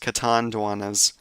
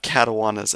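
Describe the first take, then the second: First: The middle has a clear 'nd' sound. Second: The middle has no 'nd' sound. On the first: The speaker calls it right. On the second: The speaker calls it wrong.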